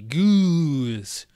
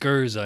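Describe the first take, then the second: First: It is one syllable, like English goose. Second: It is two syllables, ending in an uh sound. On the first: "I'm just going to say goose because it's more fun to say" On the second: "I believe that was the correct pronunciation of it"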